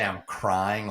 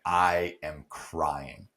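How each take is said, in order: First: Said in the usual way. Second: "I am crying" drawn out slowly, each word weighted; emphatic stress. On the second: Shown as a demonstration. Guest stresses to host how hard it was, slow and emphatic "I am crying". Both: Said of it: "when I say I'm crying".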